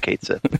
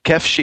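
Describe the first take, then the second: First: The name is said as 'Kate' then 'Sith'. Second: The name is said as two syllables, 'kef-shee'. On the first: "but most people would say Kate Sith" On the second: "Kefshi is the correct pronunciation"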